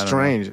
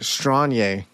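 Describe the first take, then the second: First: The word ends with a normal 'nj' sound. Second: The word ends with a 'nye' sound.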